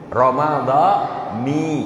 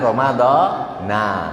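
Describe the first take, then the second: First: The word ends with an 'i' vowel. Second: The word ends with an 'a' vowel. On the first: The speaker calls it right. "Ramadhani. Jangan ramadhana" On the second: The speaker calls it wrong. "Jangan ramadhana"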